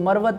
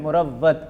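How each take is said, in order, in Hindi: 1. पहला स्वर 'a' है, w एक है। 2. पहला स्वर 'u' है, w दोहरा है। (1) "इसको मरवत पढ़ते हैं आम लोग" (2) "मीम पे पेश और वाव पे शद, ये अहम है"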